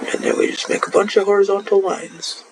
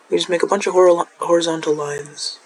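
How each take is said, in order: First: Muffled by a hand; talking through a hand; hand over mouth. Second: Said in the usual way. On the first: Real, not acted. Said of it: "Oops, sorry, that was muffled". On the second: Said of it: "I keep muffling it with my hand".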